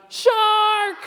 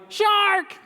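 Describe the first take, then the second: First: Very high, loud shout of "Shark!". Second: High excited call of Shark; shouted title. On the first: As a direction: yell "Shark!" as loud as you can. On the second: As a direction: cry out Shark like an alarm. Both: Shown as a demonstration. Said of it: "Can you say that really loud?".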